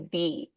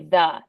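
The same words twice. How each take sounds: First: The word ends in a long 'ee' vowel. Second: The word ends in a short 'uh' vowel. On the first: It comes before a vowel sound. "before a word that starts in a vowel, we say the" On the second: It comes before a consonant sound. "before a word that starts in a consonant, we say the"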